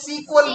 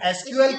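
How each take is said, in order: First: It is said as one word, sequel. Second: It is spelled out as three separate letters. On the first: "सीक्वल भी बोल सकते हैं।" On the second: "तो दो नाम है, बोलने का तरीका अलग अलग है।"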